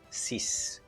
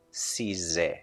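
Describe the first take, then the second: First: The word ends with an S sound. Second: The word ends with a Z sound. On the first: "Number six is pronounced sis" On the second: "So I'm going to replace the S by the Z"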